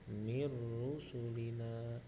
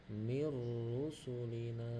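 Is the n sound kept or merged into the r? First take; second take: merged; merged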